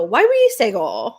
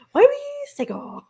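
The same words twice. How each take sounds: First: "Sager" drawn out with the ER turned into an O, like "Sago". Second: Dog voice. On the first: Host showing her twisted dog-name pronunciation, drawn-out "Sager". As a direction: stretch "Sager" into a long "Sago". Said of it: "a little drawn out Sag". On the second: Host redoing the name in her high dog voice. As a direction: squeal it like talking to the dog. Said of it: "what I'm kind of doing is I go". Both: Shown as a demonstration.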